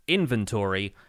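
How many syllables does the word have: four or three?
four. The word is said with four syllables. "American English pronounces it with four syllables"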